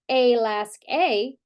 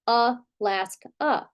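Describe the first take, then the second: First: The first and last vowels are full vowels. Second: The first and last vowels are reduced schwas. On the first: The speaker calls it wrong. "We don't say a lask a" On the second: The speaker calls it right. "we say a lask a. So we have two vowels here flexing to a schwa"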